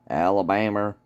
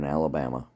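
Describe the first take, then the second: First: It is said in a put-on Southern drawl. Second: It is said in a plain Northern accent.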